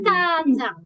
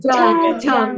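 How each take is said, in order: First: It begins with a tense ch sound. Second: It begins with a soft j sound. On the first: The speaker calls it right. "jadi bacanya cajang" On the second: The speaker calls it wrong. "Bukan jajang"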